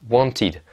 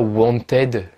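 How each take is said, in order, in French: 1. La fin se prononce un 'id' court. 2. La fin se prononce un 'ed' plein. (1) "ça va être id, wanted" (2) "ne prononcez jamais ed. On dit pas wanted"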